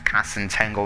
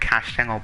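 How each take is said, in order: First: The name sounds like 'Cass and Tangle'. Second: The name sounds like 'Cash Channel'. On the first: The speaker calls it wrong. "for saying it like Cass and Tangle" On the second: The speaker calls it right. "I do say it Cash Channel"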